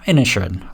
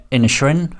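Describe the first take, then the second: First: INISHERIN said lower with a falling end; "Inisherin" dropping at the end, decided; settled fall. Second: INISHERIN said with a rising, unsure end; "Inisherin" lifted at the end, checking it; questioning rise. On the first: Settling on the film title. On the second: Trying out the film title. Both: Real, not acted.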